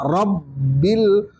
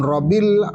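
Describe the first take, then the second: First: RABBIL split as rab-bil, B held; doubled B. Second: RABBIL as ro-bil, B undoubled; "Rabbil" with one light B; single B. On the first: Teacher modelling tasdid on ba, held double B. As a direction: hold the B in "Rabbil". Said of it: "fauqal ba". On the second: Teacher showing what it is not, single B. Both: Shown as a demonstration.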